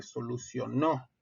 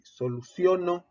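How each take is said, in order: First: Solucionó with the final NÓ stressed; stress on last syllable. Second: Soluciono stressed on the O of CIO, unstressed final NO; stress on second-to-last syllable. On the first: Teacher contrasting two verb forms, final stress on solucionó. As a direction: say solucionó as so-lu-cio-NÓ. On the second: Teacher contrasting two verb forms, penultimate stress on soluciono. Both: Shown as a demonstration. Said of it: "no es lo mismo decir".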